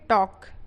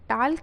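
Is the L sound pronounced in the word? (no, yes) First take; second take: no; yes. First: The L sound is silent in the word. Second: The L sound is pronounced in the word. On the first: The speaker calls it right. "यहाँ पे एल जो है क्या रहेगा silent रहेगा" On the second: The speaker calls it wrong. "इसको क्या पढ़ेंगे टाल्क नहीं पढ़ेंगे"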